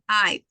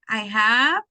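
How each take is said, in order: First: The words are merged into one short syllable. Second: Both words are said fully and separately.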